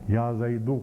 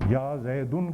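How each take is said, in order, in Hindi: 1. नाम स्वर पर खत्म होता है, बिना 'n' के। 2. नाम के अंत में एक अतिरिक्त 'n' की आवाज़ जुड़ती है। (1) "कहेंगे" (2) "कहना गलत है"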